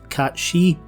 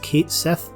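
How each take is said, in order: First: The name sounds like 'Cat She'. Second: The name sounds like 'Kate Sith'. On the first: This follows the name's original language. "the etymologically correct Cat She" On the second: This follows how the name is said in a later game. "I'll be pronouncing the robotic feline's name as Kate Sith"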